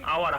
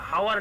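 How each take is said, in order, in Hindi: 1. शब्द स्वर ध्वनि से शुरू होता है। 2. शब्द h ध्वनि से शुरू होता है। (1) "तब हम बोलते हैं आवर" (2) "हावर नहीं बोलते"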